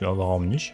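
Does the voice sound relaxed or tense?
relaxed. It is said in a relaxed, easy tone.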